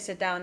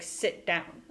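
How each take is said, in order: First: It is said casually, without command force. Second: It is said forcefully, as an emphatic command.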